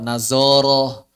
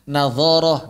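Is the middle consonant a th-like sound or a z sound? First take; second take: z; th-like. First: The middle consonant is a plain z sound. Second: The middle consonant is a soft th-like sound. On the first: The speaker calls it wrong. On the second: The speaker calls it right.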